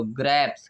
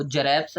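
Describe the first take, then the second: First: "ग्रेप्स" with a hard g; right-example hard-g "ग्रेप्स"; correct G sound. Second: "जरेप्स" with a j in place of g, as jareps; wrong-example j-sound "जरेप्स". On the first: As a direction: open "ग्रेप्स" on g, joined straight to r. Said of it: "ग में, तो ग्रेप्स". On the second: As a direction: misread grapes as "जरेप्स". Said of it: "क्या हम इसको जरेप्स बोलते हैं?". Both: Shown as a demonstration.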